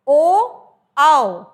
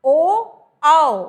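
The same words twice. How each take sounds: First: ओ and आओ called out loudly; loud vowel demo. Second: ओ and आओ stretched very slowly and loudly; slow drawn-out demo. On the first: Teacher demonstrating the vowels to students, loud. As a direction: shout ओ, आओ clearly to the class. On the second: Teacher repeating the vowels for students, very slow and loud. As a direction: drag out ओ, आओ so every shape is heard. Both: Shown as a demonstration. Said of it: "फिर हमने बोला".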